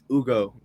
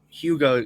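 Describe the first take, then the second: First: The name begins with no H sound. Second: The name begins with an audible H sound. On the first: The speaker calls it right. "The H is silent" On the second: The speaker calls it wrong. "it's not Hugo Gonzalez"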